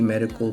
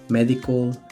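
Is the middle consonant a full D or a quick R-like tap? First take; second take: R-like tap; full D. First: The middle consonant is a quick R-like tap. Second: The middle consonant is a full D sound. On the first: The speaker calls it right. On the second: The speaker calls it wrong. "En lugar de decir"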